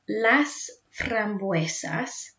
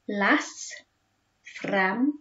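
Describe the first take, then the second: First: The phrase is said smoothly at normal speed. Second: The phrase is said slowly, split into parts.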